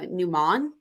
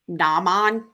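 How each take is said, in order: First: The first vowel is a shorter, rounder 'oo'. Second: The first vowel is an open, drawn-out 'ah'. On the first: The speaker calls it right. "is m- more properly said" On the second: The speaker calls it wrong. "I'm purposely butchering it"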